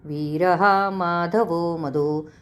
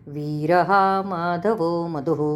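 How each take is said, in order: No difference in how they are said.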